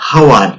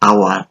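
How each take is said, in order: First: The word starts with an h sound. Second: The word starts with a vowel sound. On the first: The speaker calls it wrong. "আমরা কখনো বলি না হাওয়ার" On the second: The speaker calls it right. "এটাকে বলি আওয়ার"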